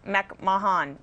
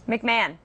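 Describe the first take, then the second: First: The name is said with a British pronunciation. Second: The name is said with an American pronunciation. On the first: "It's like McMahon or something like that" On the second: "the way I pronounce McMahon"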